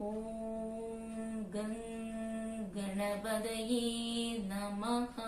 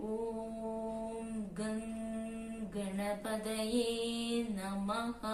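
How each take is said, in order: The two takes are said the same way.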